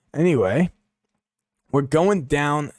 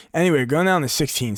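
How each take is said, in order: First: Bad impression. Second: Said in the usual way. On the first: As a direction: drag the words out in a mock impression. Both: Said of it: "shit impression".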